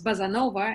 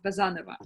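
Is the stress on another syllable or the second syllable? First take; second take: another syllable; second syllable. First: The stress is not on the second syllable. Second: The stress is on the second syllable. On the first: This is how foreigners say the name. "foreigners pronounce my name as surname as Bazanova, and they like it better, like Casanova" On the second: This is how the owner of the name says it. "the second syllable is stressed"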